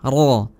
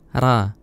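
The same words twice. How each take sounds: First: The r is said heavy and thick. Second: The r is said light and thin. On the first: The speaker calls it right. "Jadi ra-nya benar-benar ditebelin" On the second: The speaker calls it wrong. "bukan ra; Bukan terlalu tipis ya"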